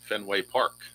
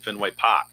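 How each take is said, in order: First: It is said in a plain, neutral accent. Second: It is said in a Boston accent.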